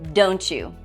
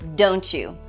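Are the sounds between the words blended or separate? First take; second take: blended; separate. First: The sounds between the words blend into one. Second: The sounds between the words stay separate.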